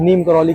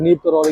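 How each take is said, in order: First: "करौली" with an l sound in the last syllable; variant name pronunciation. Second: "करौरी" with an r sound in the last syllable; variant name pronunciation. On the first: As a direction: say "करौली", ending in -lee. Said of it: "कुछ लोग नीम करौली कहते हैं". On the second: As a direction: say "करौरी", ending in -ree. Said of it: "कुछ लोग नीम करौरी कहते हैं". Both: Shown as a demonstration.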